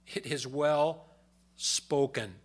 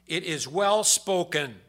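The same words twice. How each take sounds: First: Slow, deliberate repeat stressing well; slow emphatic echo. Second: Loud, slow proclamation; proclaimed quote. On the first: Shown as a demonstration. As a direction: linger on "well" as you repeat it. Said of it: "echoes the phrase slowly". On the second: Acted. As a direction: declare it slowly from the pulpit. Scripture quote read aloud.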